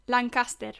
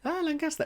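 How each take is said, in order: First: Lancaster said the Spanish way; Spanish accent. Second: Echoing Lancaster the Spanish way, high; Spanish accent. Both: Pretend. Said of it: "how would you say that in a Spanish accent".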